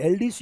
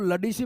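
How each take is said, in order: First: It begins with an 'el' sound. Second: It begins with a 'la' sound. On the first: The speaker calls it right. "ये एलडीसी है" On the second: The speaker calls it wrong. "अपन वहां जाके ऐसे बोलते"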